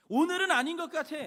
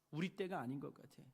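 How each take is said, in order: First: Higher, much louder, punching 오늘은; loud insistent excuse. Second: Low murmured excuse, barely voiced; quiet excuse. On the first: Retold or imitated. A doubter loudly refuses to build today, insistent shout. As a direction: let the excuse burst out, insistent. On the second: A doubter quietly shrugs off the temple work, murmuring. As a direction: hold it back, a small reluctant excuse.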